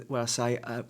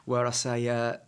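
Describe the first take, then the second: No difference in how they are said.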